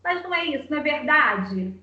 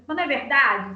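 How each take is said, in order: First: Said in the usual way. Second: A brusquer, louder push on the question; harsher tone. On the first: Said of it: "eu posso falar uma coisa normal". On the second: Shown as a demonstration. Mother showing how her child reads a harsher tone, brusque. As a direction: put a stern edge on it. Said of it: "num tom mais assim, mais ríspido".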